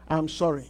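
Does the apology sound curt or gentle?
gentle. The apology is slower and softer. The speaker is trying to seem sincere. The speaker calls it right. "can you say slower? ... Try to fake a smile"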